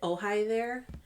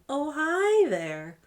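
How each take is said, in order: First: It is said in her normal voice. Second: It imitates the line from The Room.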